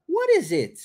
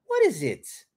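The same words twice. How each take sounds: First: "What is it" with high falling WHAT; stress on WHAT. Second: Said in the usual way. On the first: Shown as a demonstration. Teacher models the question, high stress on "What". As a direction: hit "What" high, then let "is it" fall away. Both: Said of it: "Olha a entonação".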